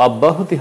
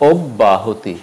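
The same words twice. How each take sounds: First: অব্যাহতি begun with an open "aw"; wrong pronunciation. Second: অব্যাহতি begun with a rounded "o"; closed first vowel in অব্যাহতি; correct pronunciation. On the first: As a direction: say অব্যাহতি as "awb-bahoti". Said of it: "অব্যাহতি হবে না". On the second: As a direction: say অব্যাহতি as "ob-bahoti". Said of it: "হবে". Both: Shown as a demonstration.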